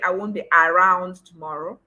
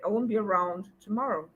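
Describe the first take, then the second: First: The first vowel of around is a full 'ah'. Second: The first vowel of around is a weak schwa. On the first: The speaker calls it wrong. "you don't say" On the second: The speaker calls it right.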